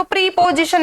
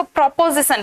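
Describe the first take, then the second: First: प्रीपोजिशन with a long "ee" in the first syllable; misreading as "pre-". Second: प्रोपोजिशन with an "o" in the first syllable; correct "pro-" reading. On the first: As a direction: say प्रीपोजिशन, opening on "pree". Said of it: "इसको प्रीपोजिशन नहीं पढ़ेंगे". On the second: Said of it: "इसको प्रोपोजिशन पढ़ते हैं". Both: Shown as a demonstration.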